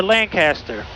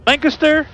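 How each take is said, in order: First: Lancaster as LAN-CASS-ter; second pronunciation variant. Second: First Lancaster as LANK-uh-ster; two variants compared. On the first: Pilot repeating the alternative for viewers, Lancaster as LAN-CASS-ter. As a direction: open up the CAST in Lancaster. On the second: Pilot repeating his question to viewers, Lancaster as LANK-uh-ster. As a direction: reduce the middle of Lancaster to a quick uh. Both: Shown as a demonstration. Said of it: "What is the correct pronunciation?".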